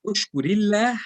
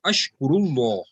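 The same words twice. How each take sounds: First: "ushkurillah" with ri and a thin, light lah, pitched higher; flat ending. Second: "ashkurullah" with ru and a dark, rounded law; full ending. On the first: Teacher contrasts two forms for students, "ushkurillah" with flat ending. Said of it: "pronunciation of Allah will be flat". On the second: Teacher models the answer for students, "ashkurullah" with full ending. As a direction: end "ashkurullah" on a full, heavy lah, like law. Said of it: "answer will be with a pour". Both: Shown as a demonstration.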